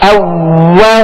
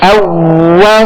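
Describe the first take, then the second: No difference in how they are said.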